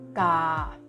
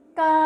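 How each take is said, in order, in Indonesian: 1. Suku kata ini diucapkan dengan nada rendah. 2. Suku kata ini diucapkan dengan nada turun. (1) "tanda nada rendah dibacanya dengan nada rendah juga" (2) "tanda nada jatuh atau my-to"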